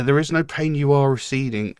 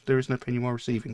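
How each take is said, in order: First: "receding" said clearly as ree-SEE-ding; the real lyric. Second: Put-on the old misheard version, "receiving" with a V; misheard lyric. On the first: Shown as a demonstration. Reading the real line to viewers, "receding" crisp. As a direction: lyric read out with "receding" spelled out in sound. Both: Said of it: "I always thought it was".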